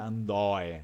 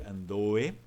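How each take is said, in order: First: The vowel sounds open. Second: The vowel sounds closed. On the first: The speaker calls it wrong. "não vai ser andoe" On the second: The speaker calls it right. "é fechado"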